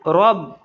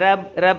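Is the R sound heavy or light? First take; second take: heavy; light. First: The R sound is heavy and thick. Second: The R sound is light and thin. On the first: The speaker calls it right. "रॉब थोड़ा मोटा होगा" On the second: The speaker calls it wrong. "ऐसे नहीं बोलेंगे"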